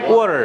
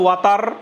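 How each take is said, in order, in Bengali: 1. এটি আমেরিকান উচ্চারণে বলা হয়েছে। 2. এটি ভারতীয় উচ্চারণে বলা হয়েছে। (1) "আর আমেরিকান অ্যাকসেন্ট কি?" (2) "ইন্ডিয়ান অ্যাকসেন্ট হচ্ছে"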